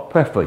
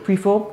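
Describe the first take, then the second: First: "prefer" said as "preh-fuh"; short e in "prefer"; Vincentian pronunciation. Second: "prefer" said as "pree-fo"; long ee in "prefer"; Grenadian pronunciation. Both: Shown as a demonstration. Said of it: "The Trini come tell us".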